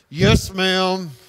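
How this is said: It is said resentfully through clenched teeth.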